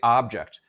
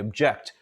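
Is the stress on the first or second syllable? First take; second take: first; second. First: The stress is on the first syllable. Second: The stress is on the second syllable. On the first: "I'm using more vocal effort to produce that first syllable" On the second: "I'm using more effort to produce the second syllable"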